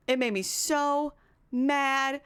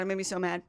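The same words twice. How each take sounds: First: "so" and "mad" stretched long, slowly; slow, heavy stress on "so mad"; drawn-out emphasis. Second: Said in the usual way. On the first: Real, not acted. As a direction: drag out "so", pause, then a long "mad".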